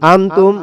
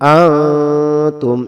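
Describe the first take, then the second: First: The n sound is pronounced clearly and fully. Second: The n sound is hidden in a nasal hum. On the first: The speaker calls it wrong. "আমরা যদি বলি আনতুম, আনতুম হবে না ভাই" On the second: The speaker calls it right. "এভাবে আ গোপন করতে হবে"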